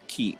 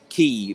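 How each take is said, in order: First: The syllable has a short vowel sound. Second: The syllable has a long vowel sound. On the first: The speaker calls it right. "It's ki like a short ki sound" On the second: The speaker calls it wrong. "It's not ki like a long sound"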